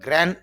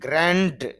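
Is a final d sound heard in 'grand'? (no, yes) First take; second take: no; yes. First: The word ends without any d sound. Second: The word ends with a clear d sound. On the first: The speaker calls it right. "গ্র্যান্ড নর পরে ড sound নেই" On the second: The speaker calls it wrong. "এরকম হবে না"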